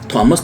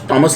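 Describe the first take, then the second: First: The name begins with an aspirated t sound. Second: The name begins with a plain t sound. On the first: The speaker calls it wrong. "थॉमस तो कोई लफ्ज़ नहीं है" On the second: The speaker calls it right. "लफ्ज़ टॉमस ही है"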